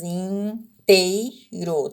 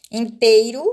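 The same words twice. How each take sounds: First: "inteiro" drawn out very slowly, each syllable apart; teacher spelling "inteiro" out by syllable; split into syllables. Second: Said in the usual way. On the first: Shown as a demonstration. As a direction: sound out "inteiro" as in-tei-ro, very slow. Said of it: "você separou em três sílabas".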